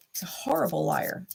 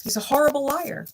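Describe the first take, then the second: First: "He's a horrible liar" whispered with no voice. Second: Said in the usual way. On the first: Real, not acted. Whispering her verdict on the ex to the viewers. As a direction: hush it, breath only.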